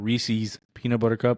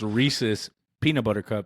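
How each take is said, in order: First: Reese's is pronounced the northern way. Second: Reese's is pronounced the non-northern way. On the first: The speaker calls it wrong. "not Reese's peanut butter cup" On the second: The speaker calls it right. "It's Reese's peanut butter cup"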